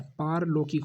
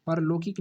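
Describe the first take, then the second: First: पारलौकिक with long paa at the start; correct form. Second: परलौकिक with short pa, the error; wrong form. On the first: Teacher giving the correct word to students, clearly. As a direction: lengthen the first vowel in पारलौकिक. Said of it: "पारलौकिक होता है". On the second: Teacher reading the misspelt word to students, plainly. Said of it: "परलौकिक नहीं होता है". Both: Shown as a demonstration.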